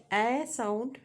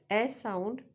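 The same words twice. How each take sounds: The two takes are said the same way.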